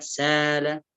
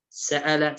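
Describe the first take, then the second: First: سال with one long aa; smooth long vowel, no stop, in سال; hamza turned to long alif in سال. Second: سأل with a glottal stop; hamza sounded in سأل. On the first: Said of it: "بألف مد". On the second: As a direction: break the vowels of سأل with hamza. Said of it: "أبدل الهمزة". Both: Shown as a demonstration.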